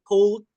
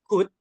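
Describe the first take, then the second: First: An L sound is pronounced in the word. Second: The word is said with no L sound. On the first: The speaker calls it wrong. "Ini bacanya bukan could, L-nya nggak perlu dibaca ya" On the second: The speaker calls it right. "jadi C U D aja"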